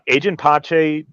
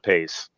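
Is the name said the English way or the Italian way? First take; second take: Italian; English. First: The name is pronounced the Italian way. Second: The name is pronounced the English way. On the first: The speaker calls it right. "she was Italian. That is the correct pronunciation" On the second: The speaker calls it wrong. "It's not Pace"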